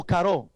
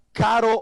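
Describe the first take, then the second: First: "caró" stressed on the closing RÓ; final-syllable stress. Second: "caro" stressed on the opening CA; first-syllable stress. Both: Shown as a demonstration. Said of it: "que es la palabra caro o caró".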